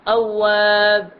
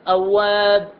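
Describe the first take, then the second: No difference in how they are said.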